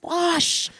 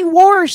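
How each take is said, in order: First: No r sound comes before the sh. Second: An r sound comes before the sh. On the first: The speaker calls it right. "don't say warsh, it's wash" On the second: The speaker calls it wrong. "his mother would say warsh. And so he spelled it W-O-R-S-H"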